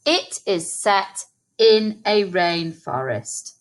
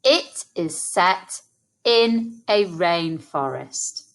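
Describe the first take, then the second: First: Said in the usual way. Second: Slow, split into two halves; slow chunked echo. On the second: Shown as a demonstration. Teacher repeating the sentence slowly in two chunks. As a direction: pause after set, then finish. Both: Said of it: "Let's say that together".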